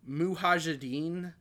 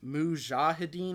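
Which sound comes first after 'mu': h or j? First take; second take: h; j. First: The h sound comes before the j sound. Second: The j sound comes before the h sound. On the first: The speaker calls it wrong. "I was saying Mujahideen ... I was flipping the J and the H" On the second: The speaker calls it right. "but it's Mujahideen"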